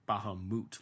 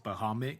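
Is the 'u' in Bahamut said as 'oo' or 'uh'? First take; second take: oo; uh. First: The last vowel sounds like 'oo'. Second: The last vowel sounds like 'uh'. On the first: "Like the U is like the ooh, not the uh sound" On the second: "I always say it's Bahamut"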